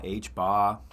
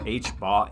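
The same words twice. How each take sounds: First: H bar with dropped r, Boston style; Boston accent. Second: Said in the usual way. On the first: Pretend. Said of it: "say that in a Boston accent".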